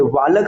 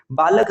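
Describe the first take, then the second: First: बालक said with V for B, "vaalak"; wrong V sound. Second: बालक said with a B, "baalak"; correct B sound. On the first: Teacher warning against the error, wrong V in बालक. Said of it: "कोई बोलेगा तो फिर गलत". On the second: Teacher confirming the right form, B in बालक. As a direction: start बालक on B, not V. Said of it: "बालक सही है". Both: Shown as a demonstration.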